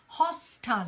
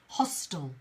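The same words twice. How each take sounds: First: The last syllable is a full 'tile' sound. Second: The last syllable is reduced to a short 'tl'. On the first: "in British English, we pronounce the last bit as tile" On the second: "But in American English, often you'll hear the word hostile"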